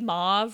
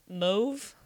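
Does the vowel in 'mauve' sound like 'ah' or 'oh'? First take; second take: ah; oh. First: The vowel sounds like 'ah'. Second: The vowel sounds like 'oh'.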